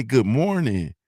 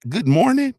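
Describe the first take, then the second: First: Easy Southern-style hello; simple, sincere good-morning in a natural pitch; friendly greeting. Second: Very high, loud disbelieving question; appalled echo, pitch way up; incredulous. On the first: Shown as a demonstration. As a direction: say it as an everyday neighborly greeting. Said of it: "Like, we say". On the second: Acted. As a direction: squeal it back in mock outrage. Disbelieving question, against friendly greeting.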